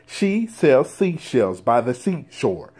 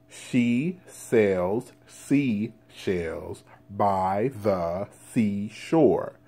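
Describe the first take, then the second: First: It is said fast. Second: It is said slowly.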